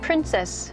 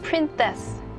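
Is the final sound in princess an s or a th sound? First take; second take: s; th. First: The final sound is a plain s. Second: The final sound is a lisped th. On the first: "이게 있으면은" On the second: "이렇게 한다는 거예요"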